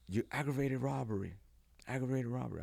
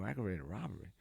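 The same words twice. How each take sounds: First: High shouted charge; barking cop. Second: Softer, questioning "Aggravated robbery?"; stunned disbelief. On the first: Feds storming the room, barking the charge. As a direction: announce the charge at him. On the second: Him caught off guard by the feds, stunned and soft. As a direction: repeat it in disbelief. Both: Retold or imitated.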